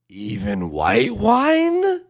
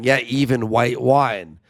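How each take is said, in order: First: It sounds like a surprised, disbelieving question. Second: It sounds like plain, matter-of-fact agreement.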